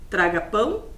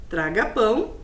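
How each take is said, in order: The two takes are said the same way.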